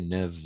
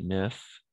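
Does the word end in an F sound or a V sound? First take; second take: V; F. First: The word ends with a V sound. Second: The word ends with an F sound. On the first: "on va prononcer comme un V" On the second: "on écrit neuf"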